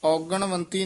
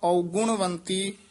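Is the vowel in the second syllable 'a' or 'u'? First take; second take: a; u. First: The second syllable has an 'a' vowel. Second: The second syllable has a 'u' vowel. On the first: The speaker calls it wrong. "ਔਗਣਵੰਤੀ ਨਹੀਂ ਕਹਿਣਾ" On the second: The speaker calls it right. "ਗੱਗੇ ਦੇ ਵੀ ਔਂਕੜ ਹੈ"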